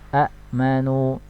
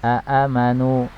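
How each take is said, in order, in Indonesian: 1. Hamzah menutup suku kata pertama. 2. Dua hamzah memulai kata ini, masing-masing diikuti harokat. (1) "dirubah menjadi hamzah yang keduanya disukun" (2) "asalnya dari kata aamanu"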